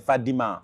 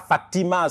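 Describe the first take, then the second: First: The middle consonant is a d sound. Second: The middle consonant is a t sound. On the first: The speaker calls it right. "c'est Fadima" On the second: The speaker calls it wrong. "c'est pas Fatima"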